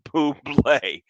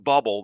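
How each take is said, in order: First: The name does not sound like the word bubble. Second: The name sounds just like the word bubble. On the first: The speaker calls it right. "It's [name]" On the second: The speaker calls it wrong. "If you're pronouncing it as bubble, that's wrong"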